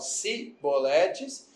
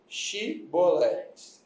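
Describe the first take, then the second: First: The word begins with a plain 's' sound. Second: The word begins with a 'sh' sound. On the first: The speaker belongs to the enemy tribe. The speaker calls it wrong. "eles não conseguiam pronunciar Shibolete, falavam Siboletes" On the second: The speaker belongs to the tribe guarding the river. The speaker calls it right. "eles pediam para falar a palavra Shiboletes"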